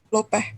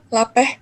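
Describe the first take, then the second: First: The first vowel is a rounded 'o' sound. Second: The first vowel is an open 'a' sound. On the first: This is the form used in the O dialect of Minangkabau. "dan dialek O" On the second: This is the form used in the A dialect of Minangkabau. "dialek A"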